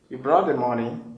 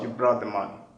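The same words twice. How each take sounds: First: The voice rises at the end. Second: The voice falls at the end. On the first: It is a question. "the intonation will rise" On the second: It is a statement. "instead of"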